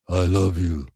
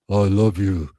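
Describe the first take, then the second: Both takes have the same delivery.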